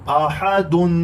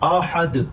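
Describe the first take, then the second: First: The word ends with the full -un sound. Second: The word ends on a bare d sound. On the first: The reading continues past the word. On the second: The reader stops at this word.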